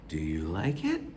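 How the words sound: The pitch goes way up, exaggerated. It is addressed to a child. "But I inflect. I go way up"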